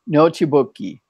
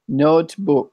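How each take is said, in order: First: The word ends with an added vowel sound. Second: The word ends on the final consonant. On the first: "as my other friend" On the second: "you don't pronounce the e's nearly as much"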